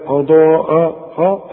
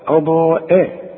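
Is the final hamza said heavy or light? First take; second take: heavy; light. First: The final hamza sounds heavy and emphatic. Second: The final hamza sounds light and thin. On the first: The speaker calls it wrong. "اوعى ترقق لي الاولى وتفخم لي الثانية" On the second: The speaker calls it right. "لا"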